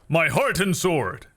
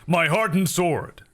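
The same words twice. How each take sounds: First: Every sound is articulated very crisply. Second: The sounds are slurred and loosely articulated. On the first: "Over pronunciation" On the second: "Under pronunciation"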